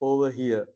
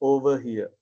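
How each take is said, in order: The two takes are said the same way.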